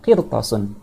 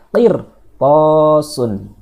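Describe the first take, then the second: First: The vowel after the t is short. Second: The vowel after the t is long. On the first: The speaker calls it wrong. "Tidak boleh dibaca hanya qirtasun" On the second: The speaker calls it right. "tapi dia harus dibaca qirtasun"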